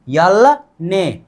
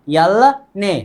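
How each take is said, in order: First: Very slow, each syllable apart: यल ने; slow spelled-out demo. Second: Said in the usual way. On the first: Shown as a demonstration. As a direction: draw out यल ने slowly for the class. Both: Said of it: "इसको बोलेंगे ने".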